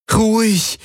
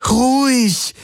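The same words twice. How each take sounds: First: High, pleading plea to calm. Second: Much higher, desperate calming call; urgent plea. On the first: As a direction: beg the animal to calm. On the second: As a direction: plead harder, higher. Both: Acted. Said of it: "flehte Kirai ihn an".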